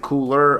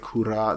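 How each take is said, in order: First: The name is said like English 'cooler'. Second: The name is said like 'koo-rah'. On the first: The speaker calls it right. "I say cooler" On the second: The speaker calls it wrong. "I do not say kura, that's just weird to say"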